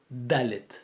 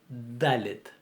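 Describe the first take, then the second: No difference in how they are said.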